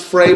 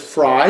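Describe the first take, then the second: First: The name rhymes with 'day'. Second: The name rhymes with 'high'. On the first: The speaker calls it wrong. "Some people pronounce this Frey" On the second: The speaker calls it right. "but it is Fry. That's how they say it"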